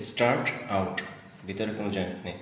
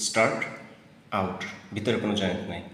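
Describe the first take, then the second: No difference in how they are said.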